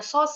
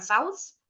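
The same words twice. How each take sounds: First: Sauce said as "sos"; sauce with one long O. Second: Saus said as "sa-us"; saus with an AU glide. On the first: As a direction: say sauce with a single open "aw" vowel, no glide. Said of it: "Bacanya sauce ya, bukan saus". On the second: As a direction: mispronounce it as saus, rhyming with house. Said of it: "bukan saus". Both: Shown as a demonstration.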